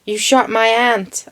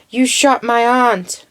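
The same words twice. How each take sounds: First: Put-on half-hearted American accent, "aunt" said like "ant"; unconvincing imitation of an American saying "aunt"; attempted American accent. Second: "aunt" with a long ah, as in British English; drawn-out quote, open back vowel in "aunt". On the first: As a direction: try an American "aunt" with a short flat a. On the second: Retold or imitated. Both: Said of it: "I can't do an American accent".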